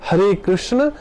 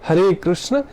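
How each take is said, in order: No difference in how they are said.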